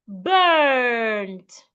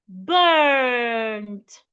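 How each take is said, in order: No difference in how they are said.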